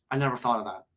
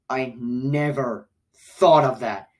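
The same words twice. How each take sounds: First: Said in the usual way. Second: Slow, stretched "never"; stress on NEVER. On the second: Real, not acted. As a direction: draw out "never" for disbelief. Repeats it in disbelief.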